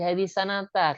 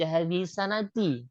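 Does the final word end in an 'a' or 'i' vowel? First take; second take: a; i. First: The final word ends with an 'a' vowel. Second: The final word ends with an 'i' vowel. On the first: The speaker calls it right. "Seharusnya itu dibaca hadis sanata karena zorof" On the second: The speaker calls it wrong. "kenapa setelahnya dibaca hadis sanati? Kok kasro?"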